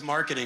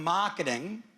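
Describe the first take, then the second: First: It is said in an American accent. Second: It is said in an Australian accent.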